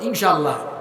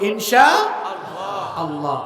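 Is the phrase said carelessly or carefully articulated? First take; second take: carelessly; carefully. First: The phrase is said in a casual, slurred way. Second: The phrase is said in a careful, fully articulated way. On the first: The speaker calls it wrong. "মানুষ এগুলো শুদ্ধ করে বলতেও পারে না, কয়" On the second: The speaker calls it right. "এটা হলো"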